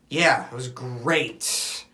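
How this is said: It is said in a curt, annoyed tone. The day was not really good. "like her response"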